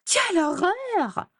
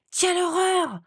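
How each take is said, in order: First: Much higher, slow mimicking wail; mocking high voice. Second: A much higher, shocked wail; horrified cry. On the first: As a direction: ape her sister's shriek to tease her. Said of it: "avec une voix aiguë". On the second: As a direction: cry out in genuine horror at the mirror. Sees her ruined hair in mirror. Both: A narrator's reading.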